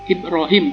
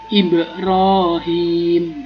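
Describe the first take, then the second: First: The b is said flat, without any bounce. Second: The b is said with a clear bouncing echo. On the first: The speaker calls it wrong. "bukan begitu, salah" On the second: The speaker calls it right. "tapi ada mantulnya"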